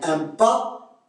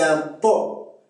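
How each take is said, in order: First: The vowel is a French open a. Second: The vowel is a Canadian back o-like sound.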